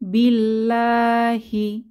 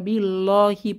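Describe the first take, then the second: First: The L sound is thin and light. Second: The L sound is thick and heavy. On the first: The speaker calls it right. "পাতলা করে লা আধ্বনিতে পড়ব" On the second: The speaker calls it wrong. "পড়ব না"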